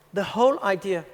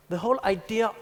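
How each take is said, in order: Both takes have the same delivery.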